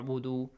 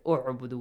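First: The opening vowel is skipped, joined to the previous word. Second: The word starts with a clear 'u' vowel. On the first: The word is read in the middle of the phrase. "because it's in the middle of the two words, you skip it" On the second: The reading starts from this word. "if you want to start from u'budu, you got to read it like I said, u'budu with dhamma"

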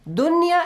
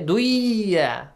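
First: The n sound is clearly kept before the y. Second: The n sound is merged into the y. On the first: The speaker calls it right. "this was an exceptional case" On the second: The speaker calls it wrong. "you should idgham merge the sound"

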